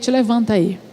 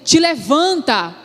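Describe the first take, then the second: First: It is said casually, without force. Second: It is said forcefully, as a command.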